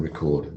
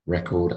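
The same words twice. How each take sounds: First: "record" with its second syllable stressed; verb stress on "record". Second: "Record" with its first syllable stressed; noun stress on "Record". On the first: Teacher repeats the verb for class, second-syllable stress on "record". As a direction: say it ri-KORD for "record". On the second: Teacher repeats the noun for class, first-syllable stress on "Record". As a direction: say it REK-ord for "Record". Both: Shown as a demonstration. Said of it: "Noun and verb".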